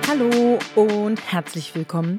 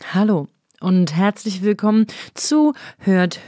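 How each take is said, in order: First: It is said with jumpy, high energy. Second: It is said in a calmer, relaxed way.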